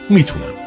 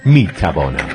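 First: The word is said in its shortened form. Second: The word is said in its full form. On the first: This is the colloquial spoken form. "در فارسی شکسته میگیم" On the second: This is the standard formal form. "در فارسی معیار میگیم"

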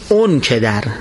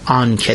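First: The first word is pronounced with an 'u' vowel. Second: The first word is pronounced with an 'a' vowel. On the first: This is the colloquial form the singer actually used. "میگفت تو بودی اون کدر" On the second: This is the formal form the singer did not use. "نمیگفت آن کدر"

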